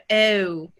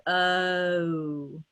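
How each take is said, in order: First: Super-posh British "Oh" starting on eh; Queen's English. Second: "Oh" starting on uh, gliding into O; drawn-out "Oh" from a neutral uh, rounded; British O glide. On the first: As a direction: tight smiling mouth, posh British glide into "Oh". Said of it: "that's the Queen's version". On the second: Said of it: "finish it into the O". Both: Shown as a demonstration.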